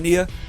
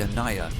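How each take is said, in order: First: The name is said like 'Aeneas'. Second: The name is said like 'Anaya'. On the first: The speaker calls it wrong. "I'm saying the name wrong" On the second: The speaker calls it right. "actually pronounced the Anaya"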